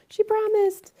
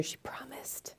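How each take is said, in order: First: Much higher, bright sing-song repeat; high playful. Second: Hushed playful whisper. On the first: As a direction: say "She promised." high and teasing. Repeat after whispered take. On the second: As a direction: whisper it like a secret. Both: Acted.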